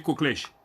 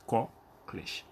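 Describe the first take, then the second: First: "coclèche" with a closed o, koklɛʃ; closed o variant. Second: "coclèche" with an open o, kɔklɛʃ; open o variant. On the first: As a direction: say "coclèche" with the first o closed like in "beau". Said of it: "dire coclèche". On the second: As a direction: say "coclèche" with the first o open like in "porte". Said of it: "mais ça se dit aussi coclèche". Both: Shown as a demonstration.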